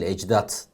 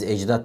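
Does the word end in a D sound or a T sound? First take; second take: T; D. First: The word ends with a voiceless T sound. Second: The word ends with a voiced D sound. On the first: It is the form adapted to Turkish. The speaker calls it right. "ecdat diyoruz" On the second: It keeps the original foreign ending. The speaker calls it wrong. "Biz ecdat değil"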